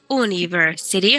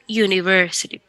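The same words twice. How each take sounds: First: It starts with a plain oo vowel, no y. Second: It starts with a soft y sound before oo. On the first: The speaker calls it wrong. "no decimos university, ok, como universidad, no" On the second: The speaker calls it right. "podríamos decir como una Y, no tan yu, no como yuca, sino university"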